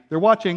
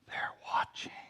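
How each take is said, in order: First: It is said in a plain, casual way. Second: It is said in an eerie, sinister way. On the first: People are simply watching something, like a game. "It doesn't have to be" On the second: Someone is ominously observing you. "Just sounds creepy if you say it that way"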